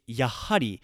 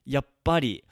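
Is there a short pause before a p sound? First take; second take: no; yes. First: It has an h sound and no pause. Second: It has a short pause before a p. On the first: It is the more formal form. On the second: It is the more informal form.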